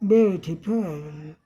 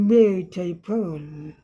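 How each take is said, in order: The two takes are said the same way.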